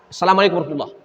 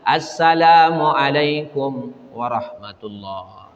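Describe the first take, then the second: First: It is said quickly, as if rushed. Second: It is said slowly and calmly.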